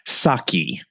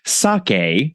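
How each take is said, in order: First: The word ends with an 'ee' sound. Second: The word ends with an 'eh' sound. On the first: The speaker calls it wrong. "and not saki" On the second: The speaker calls it right. "pronounced more like sake, similar to okay"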